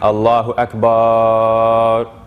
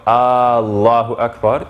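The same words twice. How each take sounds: First: The final vowel is stretched out long. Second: The opening vowel is stretched out long. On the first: "extending the last, uh, the, the last A as well" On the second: "we're actually adding an ah to the beginning"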